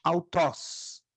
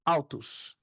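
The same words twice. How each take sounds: First: "autos" as au-TÓS; accented final syllable. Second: "autos" as AU-tus, weak final vowel; unaccented ending. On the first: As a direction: stress the open o at the end of "autos". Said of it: "Quando tá acentuado". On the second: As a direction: stress the start of "autos", drop the end. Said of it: "quando não está acentuado". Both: Shown as a demonstration.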